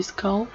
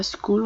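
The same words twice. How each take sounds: First: "skull" with a short open uh vowel; "skull" with uh, not oo; correct English vowel. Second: "skull" with an oo vowel, like "skool"; "skull" as if the U were oo; wrong French-U reading. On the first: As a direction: say "skull" to rhyme with dull. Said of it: "on dit skull". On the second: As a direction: misread "skull" with a long oo. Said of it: "mais on dit pas skull". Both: Shown as a demonstration.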